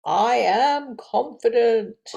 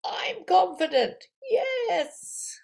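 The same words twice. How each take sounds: First: Slow, firm and loud, leaning on am; confident affirmation. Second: Fired-up shout. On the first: Teacher modelling a confident affirmation, slow and firm. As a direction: state it slowly and firmly. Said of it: "And this is power breath". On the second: After the power breath, teacher shouts fired up. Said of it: "This breath is gonna get you all fired up". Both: Shown as a demonstration.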